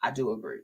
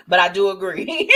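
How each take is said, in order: First: Low, quiet aside; sobered agreement. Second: Amused agreement. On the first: Host quietly owns up to agreeing, low and sober. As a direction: drop the voice right down to agree. Repeats agreement after laughing. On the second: Host agrees with a risky comment, laughing. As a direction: agree while breaking into laughter. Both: Real, not acted.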